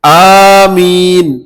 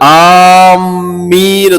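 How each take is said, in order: First: The first vowel is long and the m single. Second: The m sound is doubled and held longer. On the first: It means 'O Allah, answer.' The speaker calls it right. "അലിഫ് നീട്ടിക്കൊണ്ട് ആമീൻ എന്ന് പറയാം" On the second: It means 'those heading toward' something. The speaker calls it wrong. "മീമിന് ഷദ്ദ് കൊടുത്തുകൊണ്ട് ആമീൻ പറയാറുണ്ട്. യഥാർത്ഥത്തിൽ അത് അറബി ഭാഷ നിയമപ്രകാരം തെറ്റാണത്"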